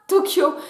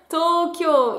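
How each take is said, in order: First: Both o vowels are said short. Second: Both o vowels are said long. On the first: The speaker calls it wrong. "ne se prononce pas Tokyo" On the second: The speaker calls it right. "mais bien Tokyo. Il y a deux allongements"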